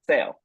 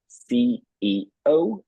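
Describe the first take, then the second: First: The letters run together without pauses. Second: Each letter is said separately with pauses. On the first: The speaker calls it wrong. "they don't pause between each letter" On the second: The speaker calls it right. "we say it one at a time"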